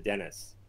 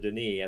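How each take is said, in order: First: The name is said the English way. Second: The name is said the French way. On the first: The speaker calls it wrong. "as opposed to Dennis" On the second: The speaker calls it right. "I do prefer the Denis"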